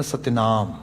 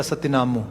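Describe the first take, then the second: First: ਸਤਿਨਾਮ closing on m, no final u; correct silent vowel. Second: ਸਤਿਨਾਮੂ with the final u sounded; literal misreading. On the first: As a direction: end ਸਤਿਨਾਮ on the m after a long aa. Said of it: "ਇਹਨੂੰ ਉਚਾਰਨ ਨਹੀਂ ਕਰਨਾ". (ਸਤਿਨਾਮ ਨੂੰ 'ਮ' 'ਤੇ ਮੁਕਾਓ, ਔਂਕੜ ਨਾ ਬੋਲੋ) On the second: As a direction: end ਸਤਿਨਾਮੂ on an audible "oo". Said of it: "ਉਹ ਡੈਫੀਨੇਟਲੀ ਪੜ੍ਹੇਗਾ". (ਸਤਿਨਾਮੂ ਦੇ ਅਖੀਰਲੇ ਔਂਕੜ ਨੂੰ 'ਊ' ਬੋਲੋ) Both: Shown as a demonstration.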